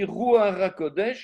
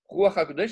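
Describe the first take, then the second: First: The first word ends in an r sound. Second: The first word ends in a throaty h sound. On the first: It means holy trembling. The speaker calls it wrong. "je vais mettre un R" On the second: It means holy breath. The speaker calls it right. "la fin du mot Ruach, c'est un chet"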